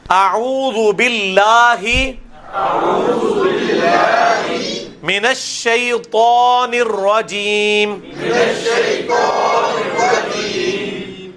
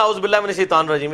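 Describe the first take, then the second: First: Drawn-out chanted اعوذ باللہ; sung, recite slowly with a heavy تا in الشیطان; sung, ترنم سے تلاوت; sung, slow recitation. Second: Quick اعوذ with the عین lost; عام لوگوں کی نقل; rushed careless recitation. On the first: Shown as a demonstration. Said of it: "یہ شیطان نہیں ہے بلکہ شیطان". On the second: Retold or imitated. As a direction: imitate people gabbling it. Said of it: "لوگ تو ایسے کہتے ہیں".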